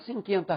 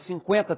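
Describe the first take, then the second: First: The u after the c is silent. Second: The u after the c is sounded. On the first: The speaker calls it wrong. "Você não fala cinquenta reais" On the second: The speaker calls it right. "tendo trema ou não, dá na mesma"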